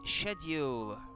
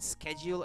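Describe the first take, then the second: First: The word is pronounced in a British way. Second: The word is pronounced in an American way. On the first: "schedule in British English" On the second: "schedule American English"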